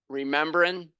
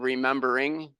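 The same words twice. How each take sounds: First: The ending is said without the final g. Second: The ending is said with the final g.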